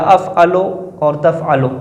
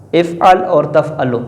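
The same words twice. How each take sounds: First: افعلو with a final "o", sounded "af'alo"; slow "af'alo", opening on "a", then تفعلو; careful alternative reading. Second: افعل without a final vowel, sounded "if'al", slowly; slow, spaced-out "if'al", then تفعلو; careful reading. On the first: Teacher offers students the alternative form, careful reading. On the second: Teacher reads the grammar example to students, careful reading. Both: Shown as a demonstration.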